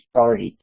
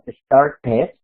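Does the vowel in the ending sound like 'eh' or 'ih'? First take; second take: ih; eh. First: The ending vowel sounds like a short 'ih'. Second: The ending vowel sounds like a clear 'eh'. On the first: The speaker calls it right. "suena como una I. Entonces dicen started" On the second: The speaker calls it wrong. "no decimos started con la E"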